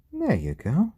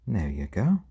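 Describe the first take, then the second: First: High sing-song voice for the chicken; high pet talk. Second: Said in the usual way. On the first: Real, not acted.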